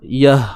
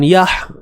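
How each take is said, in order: First: The final h is soft and ordinary. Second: The final h is sharp and forceful. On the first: The speaker calls it right. "yah biasa je" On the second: The speaker calls it wrong. "Bukan yah"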